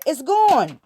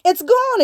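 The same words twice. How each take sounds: First: Said in the usual way. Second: Much higher and louder, hammering it home; emphatic outburst. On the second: Real, not acted. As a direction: shout the second "It's gone" high and hard. Repeats the point, emphatic second take.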